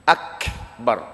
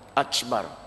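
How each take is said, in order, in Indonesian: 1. Bunyi k dilepaskan dengan hembusan berdesah. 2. Bunyi k digantikan dengan bunyi seperti ch. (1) "huruf hamas, huruf angin" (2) "dia guna huruf ca"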